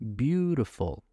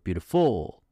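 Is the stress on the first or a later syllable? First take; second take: first; later. First: The stress falls on the first syllable. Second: The stress falls on a later syllable. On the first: The speaker calls it right. "Beautiful, right?" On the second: The speaker calls it wrong. "You don't say beautiful"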